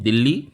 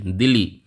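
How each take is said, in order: First: दिल्ली said as "Dil-li", with a held double L; like Indian Delhi. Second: दिल्ली said as "Di-li", with one short L; short single L. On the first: Teacher linking the capital to India's Delhi, दिल्ली with doubled L. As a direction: hold the L in दिल्ली, rising at the end. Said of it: "हमारे दिल्ली से आप जोड़ सकते". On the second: Teacher naming East Timor's capital, दिल्ली with a single short L. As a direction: say दिल्ली like the spelling D-I-L-I, falling. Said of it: "इसका जो pronunciation है". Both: Shown as a demonstration.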